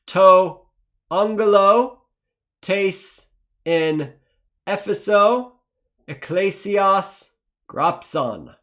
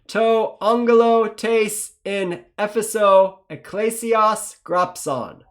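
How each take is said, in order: First: It is read slowly. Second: It is read faster.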